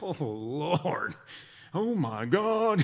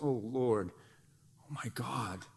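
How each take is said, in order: First: It sounds like an exasperated exclamation. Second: It sounds intimate, soft and sweet.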